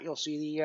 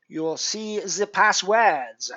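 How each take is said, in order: First: Said in the usual way. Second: Slow, badly faked French Canadian accent; pathetic French Canadian accent. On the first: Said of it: "that is my utterly pathetic attempt". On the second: Streamer directing viewers to the passwords, awful French Canadian accent. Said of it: "my utterly pathetic attempt at a French Canadian".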